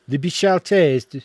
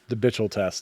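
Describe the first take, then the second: First: It is said in a put-on French accent. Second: It is said in a plain English accent.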